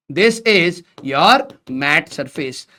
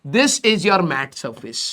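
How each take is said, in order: First: Even slower, every word stretched; slow repeat. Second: Very slow, soft and drawn out; slow emphatic teacher dictation. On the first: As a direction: repeat it slowly for notes. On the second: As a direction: dictate it word by word. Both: Shown as a demonstration. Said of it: "ये वाला जो आपका surface है".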